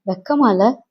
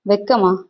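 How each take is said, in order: First: Wife's rising, reproachful question; lightly acted indignation, ending on a rise; indignant reproach. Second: Husband's falling, dismissive echo question; scornful echo. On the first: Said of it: "குமுறினேன்". (குமுறலான கேள்வி) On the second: Acted. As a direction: throw the word back with falling scorn. Husband throws her word back. (ஏளனமாகத் திருப்பிக் கேட்பது)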